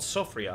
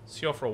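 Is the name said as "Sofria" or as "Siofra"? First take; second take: Sofria; Siofra. First: The name is said like "Sofria". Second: The name is said like "Siofra". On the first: The speaker calls it wrong. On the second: The speaker calls it right.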